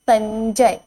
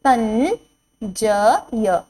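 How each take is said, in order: First: Said in the usual way. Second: संजय drawn out slowly; slow teacher drill; slow sounding out. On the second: Shown as a demonstration. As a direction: stretch संजय syllable by syllable. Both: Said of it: "अंग की मात्रा का शब्द है".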